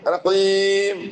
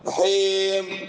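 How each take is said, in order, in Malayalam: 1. ദീർഘ സ്വരം വ്യക്തമായ 'ee' ശബ്ദമാണ്. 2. ദീർഘ സ്വരം 'o' ശബ്ദത്തിലേക്ക് ചായുന്നു. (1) "ഈ കാരത്തിൽ പോയിടാണ് റഹീം റഹീം റഹീം ഇങ്ങനെ പറഞ്ഞു" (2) "ഓ കാരത്തെ ടൈപ്പിൽ ചൊമ്മാൽമാർ ഓതുറാറ് അതും അതും റോങ്"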